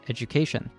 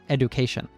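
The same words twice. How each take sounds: First: The middle consonant sounds like a J. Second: The middle consonant sounds like a D. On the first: The speaker calls it right. "The D is actually pronounced like a J" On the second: The speaker calls it wrong. "not education"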